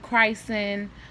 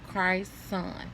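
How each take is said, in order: First: The name ends with a short 'sen' syllable. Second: The name ends with a clear 'son' syllable. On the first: The speaker calls it wrong. "or they call him Christen" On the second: The speaker calls it right. "The way I'm pronouncing it is the way that his name is spelled"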